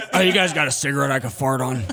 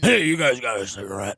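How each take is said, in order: First: Low voice breaking into laughter; laughing Tina voice. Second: Low rough-edged character voice; low Tina voice. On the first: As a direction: laugh through the character line. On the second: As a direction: beg for a smoke, slumped over. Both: Retold or imitated. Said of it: "my Tina character".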